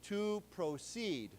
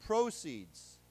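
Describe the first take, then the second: First: "proceed" stressed on the second syllable; slow, with the weight on CEED in "proceed"; verb stress. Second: "Proceeds" with the first syllable stressed; PRO-ceeds, weight up front; noun stress. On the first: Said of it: "the 动词". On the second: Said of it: "let's say it this way". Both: Shown as a demonstration.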